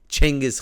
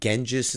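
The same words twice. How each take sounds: First: The name is said the Mongolian way. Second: The name is said the usual Western way. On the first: The speaker calls it right. "it's Genghis Khan in Mongolian" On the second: The speaker calls it wrong. "these people go Genghis or Genghis and stuff"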